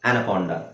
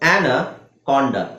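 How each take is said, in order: First: The word is said smoothly as one unit. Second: The word is split into two chunks. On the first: "ಮತ್ತೆ ಕೂಡ್ಸಿ ಓದ್ಬೇಕಲ್ವಾ" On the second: "ಎರಡು syllable ಒಟ್ಟಿಗೆ ಮಾಡ್ಬೇಕು"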